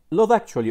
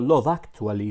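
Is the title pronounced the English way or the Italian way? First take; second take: English; Italian. First: The title is pronounced with English sounds. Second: The title is pronounced with Italian sounds.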